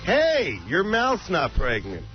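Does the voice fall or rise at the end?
fall. The voice falls at the end like a statement. It is a flat declaration that the mouth is not pregnant. The speaker calls it right.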